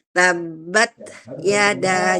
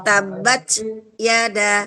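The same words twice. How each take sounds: First: The t stops with only a release of breath. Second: The t is followed by an added voiced sound. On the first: The speaker calls it right. "Nah, gitu ya" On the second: The speaker calls it wrong. "bukan begini tabat yada. Itu berarti ada su suara"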